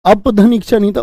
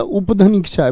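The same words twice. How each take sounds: First: अपधन said with a short a sound at the start, अप-धन; wrong reading. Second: उपधन said with a clear u sound at the start, उप-धन; correct reading. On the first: Teacher repeats his misread अपधन for the class, a-sound at the start. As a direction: read अपधन as अप, the mistaken version. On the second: Teacher corrects himself to उपधन for the class, clear u-sound at the start. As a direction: start उपधन on a plain u, the right version. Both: Shown as a demonstration.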